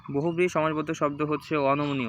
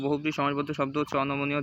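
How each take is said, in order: First: Said in the usual way. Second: Fast repeat of the answer already given; quick recap. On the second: Shown as a demonstration. Teacher quickly repeating the answer for students, fast.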